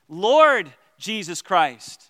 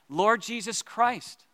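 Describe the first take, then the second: First: The stress falls on the word Lord. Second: The stress falls on the word Christ. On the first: Jesus is the master to be obeyed. "So he's the Lord" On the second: Jesus is the chosen one. "maybe I'll emphasize different words of the Jesus prayer"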